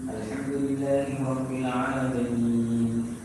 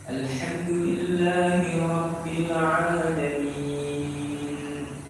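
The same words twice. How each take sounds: First: The vowel before the end is held briefly. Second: The vowel before the end is held moderately long. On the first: "kosor, bacaan yang agak cepat. Itu biasanya cukup dua saja" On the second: "bacaan tawassul itu hanya empat harokat saja"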